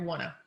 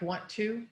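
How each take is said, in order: First: The two words blend into one reduced form. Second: Both words are said fully and separately. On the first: "you will often hear wanna" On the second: "when we want to say something like want to"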